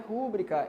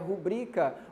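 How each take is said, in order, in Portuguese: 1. A tônica está na primeira sílaba. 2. A tônica está na segunda sílaba. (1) "a pessoa está errando a sílaba tônica da palavra" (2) "Onde está a sílaba tônica? Que é aqui no bri"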